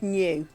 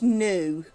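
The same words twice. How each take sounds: First: The word does not rhyme with moo. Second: The word rhymes with moo. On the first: "no one in songs ever says the word new" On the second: "It's always new, like moo"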